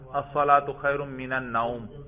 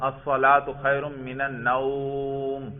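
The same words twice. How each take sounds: First: The vowel in the last word is kept short. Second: The vowel in the last word is drawn out long. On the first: The speaker calls it right. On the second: The speaker calls it wrong.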